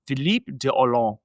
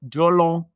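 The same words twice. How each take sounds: First: Philippe de Hollande said with French nasal vowels, dropping the final d; a playful French accent on the name. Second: French accent again. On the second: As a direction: lean a bit harder into the French accent. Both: Shown as a demonstration. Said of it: "Hope you like my French accent".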